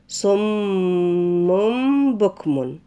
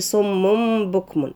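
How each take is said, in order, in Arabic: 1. تُنطَق الميم المشددة مع غنة أنفية طويلة. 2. تُقصَر الميم المشددة قبل الباء. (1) "لازم نقف الأول على الميم كويس بتاعت صم، نديها حقها في طول الغنة" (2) "ما نقولش صم بكم"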